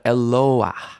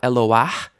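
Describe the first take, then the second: First: The stress is on the second syllable. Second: The stress is on the final syllable. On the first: The speaker calls it right. "but Eloah" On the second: The speaker calls it wrong.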